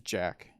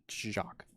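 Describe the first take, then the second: First: The name sounds like the English word Jack. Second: The name is said differently from the word Jack. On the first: The speaker calls it wrong. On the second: The speaker calls it right.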